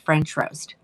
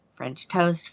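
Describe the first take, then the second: First: Roast in French roast marked as the fix; French roast given as the right name; corrected name. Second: Said in the usual way. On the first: Shown as a demonstration. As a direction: set roast against toast. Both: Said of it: "I'm gonna say it the way it's listed".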